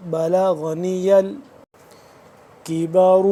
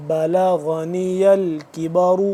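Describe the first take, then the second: First: بلغنی الکبر drawn out slowly, ر in الکبر kept heavy; slower repeat of بلغنی الکبر; slow recitation. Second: الکبر ending in a heavy, full ر; thick ra. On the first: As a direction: stretch out بلغنی الکبر with care. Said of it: "کبر کا بریک ہے". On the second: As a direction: recite الکبر with a darkened ر. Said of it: "را موٹا ہے". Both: Shown as a demonstration.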